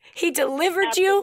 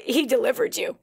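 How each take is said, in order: First: He delivered you said higher with a rising finish; preacher repeating He delivered you with raised emphasis; emphatic repeat. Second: Said in the usual way. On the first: Real, not acted. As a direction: lift He delivered you up and hold the rise on you.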